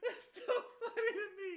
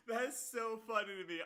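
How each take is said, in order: First: Words squeezed out high through laughter; real laughter breaking the words; laughing. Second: Said in the usual way. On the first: Real, not acted. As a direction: talk while still cracking up. Still laughing after long laugh.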